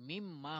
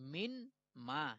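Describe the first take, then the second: First: The n sound merges into a doubled m. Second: The n sound is pronounced before the m. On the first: The rule of assimilation has been applied. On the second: This is the original form before assimilation.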